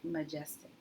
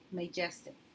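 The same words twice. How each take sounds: First: The first vowel is a reduced uh sound. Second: The first vowel is a long a sound. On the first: The speaker calls it right. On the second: The speaker calls it wrong.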